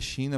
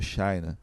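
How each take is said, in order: First: The word is said with Portuguese sounds. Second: The word is said with English sounds. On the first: "escreve China" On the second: "por vir de lá dos Estados Unidos, o pessoal pronuncia como China"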